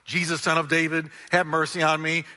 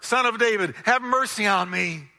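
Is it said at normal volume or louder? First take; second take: normal; louder. First: It is shouted at a normal loudness. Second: It is shouted even louder.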